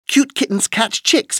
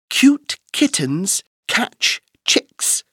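First: It is said at a very fast pace. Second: It is said at a slow, careful pace.

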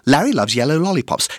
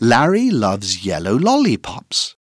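First: The sentence is said at a very fast pace. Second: The sentence is said at a fast pace. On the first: "Encore plus vite!" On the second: "plus vite!"

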